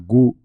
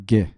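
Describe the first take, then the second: First: The u sound is pronounced after the g. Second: The u sound is silent after the g. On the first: The speaker calls it wrong. "Você não fala gu" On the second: The speaker calls it right. "você fala G"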